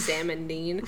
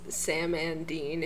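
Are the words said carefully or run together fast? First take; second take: run together; carefully. First: The words run together fast into one blur. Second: The words are said separately at normal speed.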